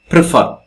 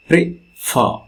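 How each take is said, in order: First: Said in the usual way. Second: Prefer with the second syllable fer pushed hard; stress on FER. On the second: Shown as a demonstration. Teacher showing the class where Prefer is stressed, fer stressed. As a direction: lean on fer in Prefer, not on pre. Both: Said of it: "Stress comes here".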